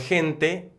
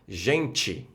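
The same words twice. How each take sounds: First: The final syllable ends with a plain 'teh' sound. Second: The final syllable ends with a 'chee' sound. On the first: This is the Spanish pronunciation. "En español" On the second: This is the Portuguese pronunciation. "en portugués"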